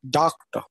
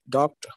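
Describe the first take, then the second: First: The first syllable is said with extra force. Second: The syllables are said evenly, without stress.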